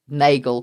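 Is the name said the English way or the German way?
English. The name is said with an English pronunciation. The bearer of the name was English. "they'd anglicize it"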